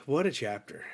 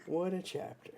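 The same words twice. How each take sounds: First: Said in the usual way. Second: Higher, softer awed murmur; softly amazed, half to yourself; awed hush. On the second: Real, not acted. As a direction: murmur it in quiet awe.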